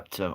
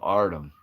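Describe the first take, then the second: First: The name is said with a p sound. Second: The name is said with an r sound. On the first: The speaker calls it wrong. "I don't even think I said that right" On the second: The speaker calls it right. "is that right?"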